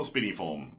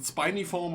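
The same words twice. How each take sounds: First: "spiniform" with first syllable like "spin"; first vowel of "spiniform" as in "pin"; short-i pronunciation. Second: "spiniform" with first syllable like "spine"; first vowel of "spiniform" as in "eye"; long-i pronunciation. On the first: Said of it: "I'm just gonna call it spiniform". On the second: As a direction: say "spiniform" as SPY-nee-form. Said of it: "is it spiniform or spiniform?". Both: Shown as a demonstration.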